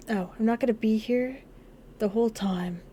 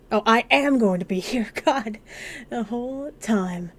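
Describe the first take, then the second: First: Said in the usual way. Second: AM pushed out loud and strong; amused, exasperated emphasis on "am"; emphatic self-correction. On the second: Real, not acted. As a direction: stress "am" hard, correcting yourself with a laugh. Corrects own misreading, laughing at it.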